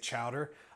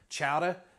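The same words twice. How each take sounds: First: It is said in a plain Midwestern accent. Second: It is said in a put-on regional accent.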